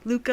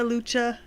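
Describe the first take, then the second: First: The middle consonant is a hard k sound. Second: The middle consonant is a ch sound. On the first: "Some people pronounce it Luca" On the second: "some people pronounce it Lucha"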